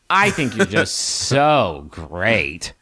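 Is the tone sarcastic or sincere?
sarcastic. It is said in a sarcastic, mocking tone. The compliment is meant ironically.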